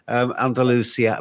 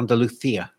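First: The name is pronounced in an anglicized way. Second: The name is pronounced in a native Spanish way. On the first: The speaker calls it wrong. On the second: The speaker calls it right.

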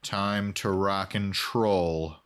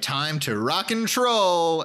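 First: It is said with a sigh and frustration. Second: It is said cheerfully and with enthusiasm.

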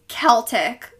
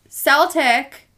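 First: The word begins with a hard K sound. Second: The word begins with a soft S sound. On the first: This is the modern way of saying it. "the modern pronunciation is Celtic, like with a K sound" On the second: This is the older way of saying it. "the early pronunciation with an S sound"

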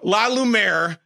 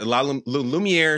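First: The name is said with a plain American accent. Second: The name is said with a French-sounding accent. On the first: The school is an ordinary place in Indiana. The speaker calls it right. "No, it's in Indiana" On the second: The school sounds like it is somewhere fancy in Europe. The speaker calls it wrong. "I'm trying to say it like it's up in the Alps somewhere"

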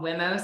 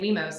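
First: The first syllable sounds like the start of 'women'. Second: The first syllable does not sound like 'women'. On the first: "I intended for it to be called WIMOs because it sounds like women" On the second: "I've seen a lot of people just like to say WIMOs"

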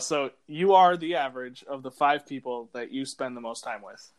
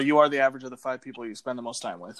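First: It is said slowly and deliberately. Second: It is said at a normal pace.

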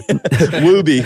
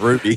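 First: The name begins with a W sound. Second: The name begins with an R sound.

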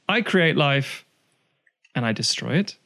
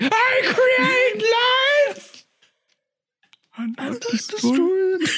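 First: The line is read plainly and innocuously. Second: The line is delivered with sinister inflection.

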